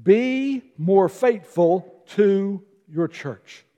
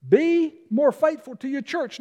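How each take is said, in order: First: Slow, each word weighted; slow emphasis. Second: Higher, lighter restatement; higher repeat. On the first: Pastor giving the first point to the church, slow emphasis. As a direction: spell out every word of be more faithful. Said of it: "here's the very first thing". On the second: Pastor repeating his point for the congregation, raised pitch. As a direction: lift it up as a repeat. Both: Real, not acted.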